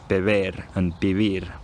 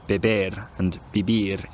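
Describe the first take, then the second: First: The b between vowels sounds like v. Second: The b between vowels is a hard stop. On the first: The speaker calls it right. "Spanish b is pronounced like v between vowels" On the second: The speaker calls it wrong. "they're going to say"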